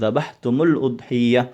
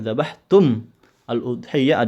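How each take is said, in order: First: The two words are linked with a joining vowel. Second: The two words are said separately, unlinked.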